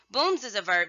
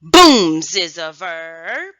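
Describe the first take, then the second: First: Said in the usual way. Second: BOOMS big and loud, "verb" stretched upward; class call-out. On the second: Shown as a demonstration. Teacher to scholars introducing a new verb, loud slow call-out on BOOMS. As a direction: call it out slowly, leaning hard on BOOMS.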